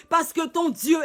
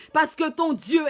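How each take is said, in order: Both takes have the same delivery.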